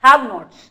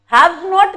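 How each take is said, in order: First: "have nots" with s only at the end; corrected final s. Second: "Haves not" with s after "Haves"; wrong form shown. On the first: Teacher correcting the students' confusion, "have nots" with final s. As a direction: land firmly on the s of "nots". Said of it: "S should come at the end". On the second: Teacher rejecting the students' confusion, "Haves not" with early s. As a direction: sound the s in "Haves", end bare on "not". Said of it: "Haves not नहीं". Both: Shown as a demonstration.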